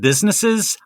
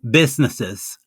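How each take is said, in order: First: The s sounds are clear and crisp. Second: The s sounds are lisped, tongue between teeth. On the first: "instead of businesses" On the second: "I had a lisp. ... I would say businesses"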